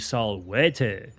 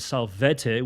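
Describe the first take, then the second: First: The letter v is sounded as w. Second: The letter v is sounded as v. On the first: The speaker calls it right. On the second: The speaker calls it wrong.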